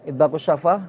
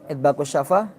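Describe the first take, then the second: The two takes are said the same way.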